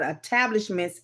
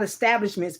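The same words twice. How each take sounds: First: It is pronounced like the French word. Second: It is pronounced like the English word. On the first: The speaker calls it right. "but establishments" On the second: The speaker calls it wrong. "not establishments"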